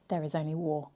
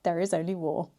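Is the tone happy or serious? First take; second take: serious; happy. First: It is said in a serious tone. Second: It is said in a happy tone.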